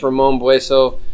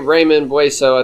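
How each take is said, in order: First: The first name sounds like Spanish Ramon. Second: The first name sounds like English Raymond. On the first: This is what the speaker believes is correct. The speaker calls it right. "I think it's" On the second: This is how the speaker habitually says it. The speaker calls it wrong. "I say"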